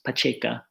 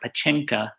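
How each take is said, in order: First: No 'n' sound comes before the 'k'. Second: An 'n' sound comes before the 'k'. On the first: "the later form" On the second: "I'm saying it with an N in there"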